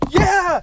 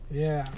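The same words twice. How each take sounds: First: It is said with lively excitement. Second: It is said flatly, without excitement.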